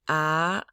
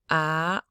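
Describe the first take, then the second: The two takes are said the same way.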